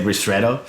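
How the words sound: The word is pronounced the English way. "otherwise we say ristretto"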